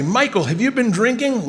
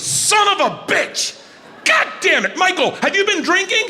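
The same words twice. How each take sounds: First: Higher-pitched but milder quoted rebuke; quoted scolding. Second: High, shouted scolding of a partner; irate. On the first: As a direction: quote the scolding without shouting. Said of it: "When I say". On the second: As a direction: explode at him in a shrieked rebuke. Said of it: "David gets irate". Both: Retold or imitated.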